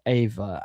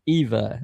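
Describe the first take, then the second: First: The name does not rhyme with diva. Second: The name rhymes with diva. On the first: The speaker calls it wrong. "not Ava. I've been saying Ava" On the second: The speaker calls it right. "Eva rhymes with diva"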